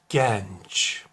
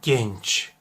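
First: The E vowel is said open. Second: The E vowel is said closed. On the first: The speaker calls it wrong. "Açarak" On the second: The speaker calls it right. "Doğru şu an telaffuz ettim"

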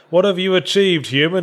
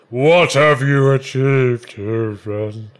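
First: It is read in a plain reading voice. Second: It is said in a booming voice that fades.

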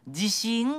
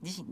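First: It has the Kansai pitch pattern for confidence. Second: It has the Kansai pitch pattern for earthquake. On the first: It means self-confidence. "自分自信があるの方は、自信って言うんですよ" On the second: It means an earthquake. "関西弁で揺れる地震はね"

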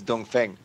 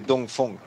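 First: The name is said with English reading sounds. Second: The name is said with Mandarin Chinese sounds. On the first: "when you read it in English, it's Dongfeng" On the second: "In China, we say Dongfeng"

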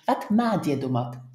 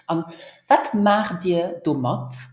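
First: The verb is shortened as in casual speech. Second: Each word is pronounced fully and carefully.

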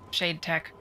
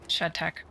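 First: The first vowel is long, as in 'made'. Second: The first vowel is short, as in 'bed'. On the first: The speaker calls it right. "It's Shade Tech" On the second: The speaker calls it wrong. "they were calling it Shed Tech"

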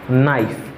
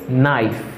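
The two takes are said the same way.

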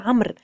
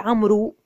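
First: The final waw is silent. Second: The final waw is sounded aloud. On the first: The speaker calls it right. "وإنما نقول عمرو" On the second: The speaker calls it wrong. "لا نقول عمرو"

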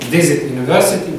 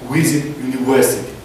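First: The words use a clear v sound. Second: The words use a w-like lip sound. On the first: The speaker calls it right. "замість сказати" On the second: The speaker calls it wrong. "вони скажуть"

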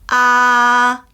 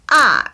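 First: The syllable carries the first tone. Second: The syllable carries the fourth tone. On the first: "1성" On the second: "4성"

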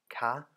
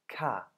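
First: The syllable is said with a high tone. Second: The syllable is said with a falling tone. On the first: It marks a question. "im hohen Ton gesprochen wird, K und für Fragen gebraucht wird" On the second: It marks a statement. "im fallenden Ton K als affirmative oder als Aussage"

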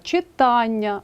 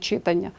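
First: The stress is on the syllable with 'a'. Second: The stress is on another syllable. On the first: The speaker calls it right. "мають наголошений «а»" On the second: The speaker calls it wrong. "а не"

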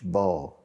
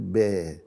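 First: The b is heavy, with lips pushed forward. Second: The b is light, with lips drawn back. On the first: The speaker calls it wrong. "مش با" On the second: The speaker calls it right. "نقولها كده نقول با"

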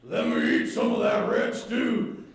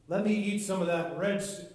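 First: It is said in a put-on Esau voice. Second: It is read in his normal voice.

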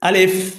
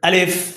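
Both takes have the same delivery.

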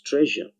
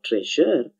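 First: The middle sound is a blended 'zh' sound. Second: The middle sound is a plain 'z' with a separate 'y'. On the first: The speaker calls it right. "but it's treasure" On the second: The speaker calls it wrong. "It's not treasure"

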